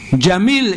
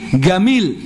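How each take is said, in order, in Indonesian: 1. Kata ini diawali dengan bunyi j. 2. Kata ini diawali dengan bunyi g keras. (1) "mengucapkan jim" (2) "Pakai go"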